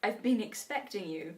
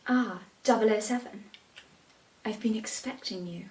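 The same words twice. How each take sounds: First: A hint of a suave villain; Bond villain line. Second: Lightly voiced Bond villain greeting; a hint of a suave villain. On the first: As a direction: tease the villain line quietly. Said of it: "Hit us with the". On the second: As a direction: purr it like a film villain welcoming Bond. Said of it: "think they're in James Bond".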